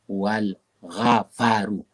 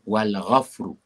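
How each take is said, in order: First: An extra a vowel sits between f and r. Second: The f runs straight into r, no vowel. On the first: The speaker calls it wrong. "supaya jangan dibaca wal ghafaru" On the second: The speaker calls it right. "Dan sukun pada huruf fa"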